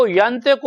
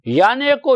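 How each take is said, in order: First: ینطق with a plain ط; ینطق spoken plainly; contrasting wrong word. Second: ینعق with a clear throaty ع in the middle; ینعق articulated carefully; stressed Arabic pronunciation. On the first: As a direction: say ینطق as the word that was not used. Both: Shown as a demonstration. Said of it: "ینطق نہیں کہا".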